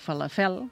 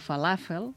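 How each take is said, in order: First: The stress is on the last syllable. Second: The stress is on the second syllable. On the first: The speaker calls it wrong. "no falafel" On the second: The speaker calls it right. "aquesta pensem que ha de ser plana"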